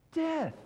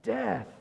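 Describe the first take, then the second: First: "Death." repeated much higher and sharper; emphatic. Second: Said in the usual way. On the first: Shown as a demonstration. Preacher answers his own question, repeating "Death." higher. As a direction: hit "Death." again, pitched up hard. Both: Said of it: "What is the payment of sin?".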